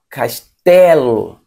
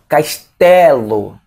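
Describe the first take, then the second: The two takes are said the same way.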